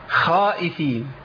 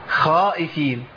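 Both takes have the same delivery.

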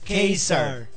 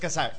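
First: The first syllable is a 'kai' sound. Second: The first syllable is a plain 'ka' sound. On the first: The speaker calls it right. "es Kaiser" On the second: The speaker calls it wrong. "No es Cazar"

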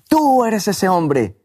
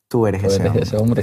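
First: It is said in a loud, accusing tone. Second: It is said in a soft, gracious tone. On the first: The listener is being condemned. "gritando y acusando a la otra persona" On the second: The listener is being confronted with compassion. "mezcladas con gracia"

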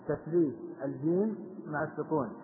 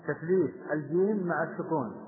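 The two takes are said the same way.

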